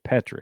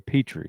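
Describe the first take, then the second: First: The first syllable sounds like 'pet'. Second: The first syllable does not sound like 'pet'. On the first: This is the name's real pronunciation. The speaker calls it right. "P E T, pet" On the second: This is how others mispronounce the name. The speaker calls it wrong. "They say Petrie"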